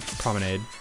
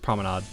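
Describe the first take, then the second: First: The ending rhymes with lemonade. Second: The ending does not rhyme with lemonade. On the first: The speaker calls it wrong. "I always do a like lemonade" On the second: The speaker calls it right. "I think it's promenade"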